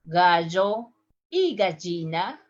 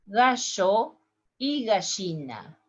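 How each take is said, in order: First: Gallo y gallina with a dj, "gadjo"; dj sound. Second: Gallo y gallina with sh, "gasho"; sh sound. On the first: Teacher demos rooster and hen with dj. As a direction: ll voiced hard as j. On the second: Teacher demos rooster and hen with sh. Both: Shown as a demonstration. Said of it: "in the three different accents".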